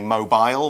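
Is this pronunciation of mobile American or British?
British. It is said in a British accent.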